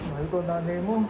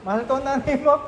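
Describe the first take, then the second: First: The line is said in a sad tone. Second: The line is said in a happy tone.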